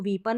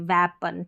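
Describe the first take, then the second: First: The first vowel is a long 'ee'. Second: The first vowel is a short 'eh'. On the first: The speaker calls it wrong. "इसको वीपन नहीं बोलेंगे" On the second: The speaker calls it right.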